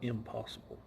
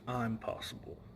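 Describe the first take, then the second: First: The first syllable has a short 'i' vowel. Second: The first syllable has a long 'eye' vowel. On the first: Something cannot be done. The speaker calls it wrong. "they've mispronounced it for years" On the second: I am capable of it. The speaker calls it right. "It's I'm possible"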